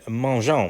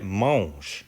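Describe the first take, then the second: First: The ending is pronounced with a nasal 'on' sound. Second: The ending is silent, with no nasal sound. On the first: The speaker calls it wrong. "this E N T, we don't say on, right? We're not going to say" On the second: The speaker calls it right. "We're going to say"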